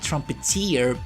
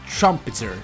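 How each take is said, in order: First: The word ends in a long "teer" sound. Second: The word ends in a short "ter" sound. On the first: The speaker calls it wrong. "I always pronounce it like trumpeteer, and it was wrong" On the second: The speaker calls it right. "it's trumpeter"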